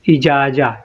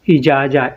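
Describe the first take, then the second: First: The word ends with an open vowel. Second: The word ends with an open vowel.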